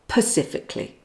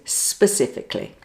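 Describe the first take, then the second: First: The word begins with a p sound. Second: The word begins with an s sound. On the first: The speaker calls it wrong. "don't say pacifically" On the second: The speaker calls it right. "The correct pronunciation is specifically"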